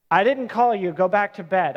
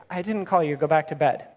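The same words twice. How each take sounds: First: Dad sent back to bed one more time, lightly fed up; weary parent. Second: Said in the usual way. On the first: Retold or imitated. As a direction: sigh it out like a tired parent of a four-year-old. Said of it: "I've been there. I have a four-year-old".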